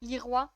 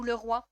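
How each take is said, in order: First: Leroy said as "lee-rwa"; Leroy with a long first vowel, ending "rwa"; alternative pronunciation. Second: Le roi said as "leu-rwa"; le roi with a neutral French "le"; alternative pronunciation. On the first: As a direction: say Leroy with ee, then French "roi". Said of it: "Il y en a qui disent". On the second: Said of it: "Vous préférez quoi comme pro". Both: Shown as a demonstration.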